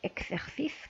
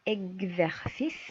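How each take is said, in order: First: The x is pronounced as ks. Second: The x is pronounced as gz. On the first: The speaker calls it wrong. "ماشي اكسرسيس" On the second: The speaker calls it right. "اكزرسيس ماشي اكسرسيس"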